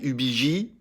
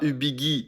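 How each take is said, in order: First: The last syllable has a soft zh sound. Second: The last syllable has a hard g sound. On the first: The speaker calls it right. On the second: The speaker calls it wrong. "on dit pas"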